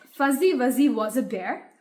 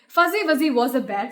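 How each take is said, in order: First: It is said at a normal, careful pace. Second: It is said as fast as possible.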